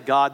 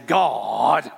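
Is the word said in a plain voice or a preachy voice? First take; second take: plain; preachy. First: The word is said in a plain, ordinary voice. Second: The word is said in a dramatic preacher voice. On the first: "some preachers don't say God" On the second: "they say God?"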